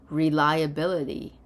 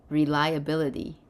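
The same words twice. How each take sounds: The two takes are said the same way.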